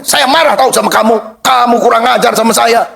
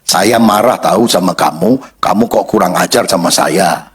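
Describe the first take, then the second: First: Acted angry scolding, pitched up; angry high tone. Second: Low, calm-down version of scolding; deep, toned-down reproach, as an example; lowered tone. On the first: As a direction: demonstrate a quarrel-starting tone. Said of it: "tapi nada suaranya. Misalnya, orang ngomong gini". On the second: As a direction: voice the complaint far lower in pitch. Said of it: "nadanya direndahkan". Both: Shown as a demonstration.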